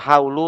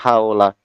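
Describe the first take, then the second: First: The word ends with a 'u' vowel. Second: The word ends with an 'a' vowel. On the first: The speaker calls it wrong. "bukan haulu" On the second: The speaker calls it right. "tapi haula"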